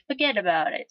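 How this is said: It is said in an Italian accent.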